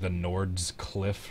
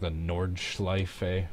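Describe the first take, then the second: First: The ending sounds like 'cliff'. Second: The ending sounds like 'shlyfuh'. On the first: The speaker calls it wrong. "I used to pronounce it like the Nord's Cliff or something" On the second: The speaker calls it right. "So I did get that somewhat correctly"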